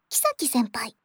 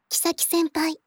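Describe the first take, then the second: First: The name is said with a pitch drop inside. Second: The name is said with flat pitch, no drop. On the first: This is the version adopted for the recording. "響ちゃんがキサキ先輩ではなくキサキ先輩とおっしゃっていた" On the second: This is how the speaker had assumed the name went. "平板って言われるアクセントだと思ってたんです"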